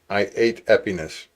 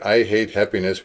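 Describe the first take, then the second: First: The H sounds are dropped. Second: The H sounds are pronounced.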